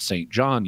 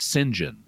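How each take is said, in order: First: Both words are said fully and clearly. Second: The words are slurred together into one short name. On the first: "they don't pronounce it Saint John usually" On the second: "They slur it, and they pronounce it"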